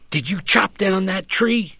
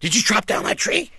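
First: The question is asked in a calm, unstartled way. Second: The question is asked in a startled, surprised way.

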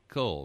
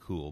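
First: It is said in a youthful, teenage-style way. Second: It is said in a plain, standard way.

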